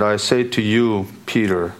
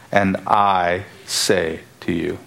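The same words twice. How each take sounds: First: Said in the usual way. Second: Slow, spaced words with weight on "I"; emphatic I. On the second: Shown as a demonstration. Preacher shows how Jesus pronounces it to Peter, emphatic "I". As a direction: set "I" apart and say each word deliberately. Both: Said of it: "Jesus pronounces emphatic".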